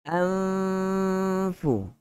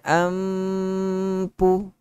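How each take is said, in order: First: The upper teeth touch the lower lip, an f sound. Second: Both lips close together, making a p sound. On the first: The speaker calls it right. "makhraj huruf fa, dua gigi kacip bahagian atas sentuh pada uh, bibir" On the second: The speaker calls it wrong. "Ampu jadi huruf P"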